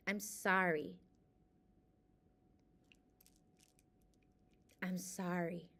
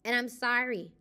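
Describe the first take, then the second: First: Softer and softer, sincere sorry; quiet heartfelt apology to herself; fading apology. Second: Said in the usual way. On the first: Real, not acted. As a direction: let each sorry fade away.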